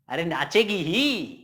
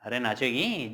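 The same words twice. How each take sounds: First: Slow, leaning hard on the final ही; stress on ही. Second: Said in the usual way. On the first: Shown as a demonstration. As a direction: drag out नाचेगी and land firmly on ही. (धीमे बोलें और ही पर ज़ोर दें) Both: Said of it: "अरे sentence है यार".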